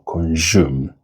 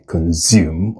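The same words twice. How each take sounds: First: The consonant after "con" is a J sound. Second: The consonant after "con" is a buzzing Z. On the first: "it's not J" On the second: "The S in this word is not Z"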